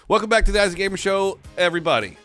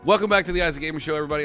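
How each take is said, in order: First: It is said like a newscaster. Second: It is said in a casual voice.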